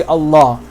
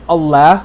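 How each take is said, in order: First: "Allah" with dark l and back "aw"-like vowel; thick, heavy pronunciation. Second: "Allah" with the flat a of "cat"; light l and fronted a in "Allah"; thin-vowel mispronunciation. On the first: Teacher repeating what we say, thick and heavy. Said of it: "we say Allah". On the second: Teacher repeating what we don't say, thin mispronounced vowel. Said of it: "we don't say Allah". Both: Shown as a demonstration.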